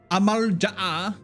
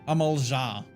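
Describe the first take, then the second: First: A glottal stop breaks the final vowel. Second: The final vowel runs on with no break. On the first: "I'm trying to actually like pronounce the freaking like apostrophe in there" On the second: "he's just like"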